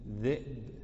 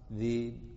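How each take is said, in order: First: A glottal stop is clearly pronounced inside the word. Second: The glottal stop is replaced by a long vowel. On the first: "والتحقيق تقول" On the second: "التخفيف تقول"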